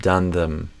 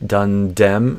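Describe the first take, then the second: First: Them starts with a th sound. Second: Them starts with a d sound. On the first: The speaker calls it right. "The th is the key thing" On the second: The speaker calls it wrong. "The th is the key thing"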